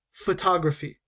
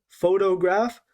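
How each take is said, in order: First: "photography" stressed on TOG, falling at the end; careful demo of pho-TOG-raphy; stress on second syllable. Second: "photograph" stressed on PHO, rising at the end; careful demo of PHO-to-graph; stress on first syllable. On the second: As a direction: punch the opening of "photograph" for contrast. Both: Shown as a demonstration. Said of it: "we're stressing different parts of this word".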